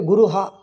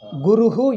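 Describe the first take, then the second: First: The final echo syllable is 'ha'. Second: The final echo syllable is 'hu'. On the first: The speaker calls it wrong. "you don't say Guruha" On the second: The speaker calls it right. "Guruhu, you say"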